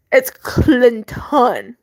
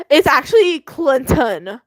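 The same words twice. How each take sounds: First: "Clinton" said slowly, each sound spelled out; drawn-out, deliberate "Clinton"; careful correct pronunciation. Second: Said in the usual way. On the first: Shown as a demonstration. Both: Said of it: "correct pronunciation".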